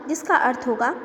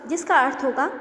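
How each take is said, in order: No difference in how they are said.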